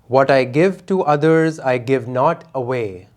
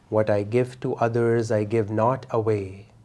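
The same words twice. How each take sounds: First: It is said loudly with lots of energy. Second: It is said in a softer, quieter voice. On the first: "out loud with a lot of energy" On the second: "in a softer voice"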